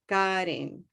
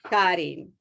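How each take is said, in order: First: The name is said with a Spanish pronunciation. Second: The name is said with a Spanish pronunciation.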